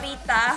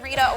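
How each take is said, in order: First: The name is said in a plain Indonesian way. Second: The name sounds like the English pop singer's. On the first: It is the character's name. The speaker calls it right. "tapi ini [name]" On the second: It is the singer's name. The speaker calls it wrong. "kayak ke penyanyi [name]"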